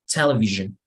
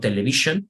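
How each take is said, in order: First: The middle sound is a voiced buzzing zh. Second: The middle sound is a plain voiceless sh. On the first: The speaker calls it right. "You say television" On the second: The speaker calls it wrong. "not television"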